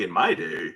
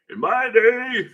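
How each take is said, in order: First: Said in the usual way. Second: High, loud, hammed-up old-timer; mock old-timer. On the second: Quoting what they used to say, mock old-timer. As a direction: push it up high like a crotchety elder.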